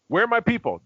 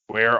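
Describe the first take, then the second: First: It is said with a dramatic affectation. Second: It is said flat and straight.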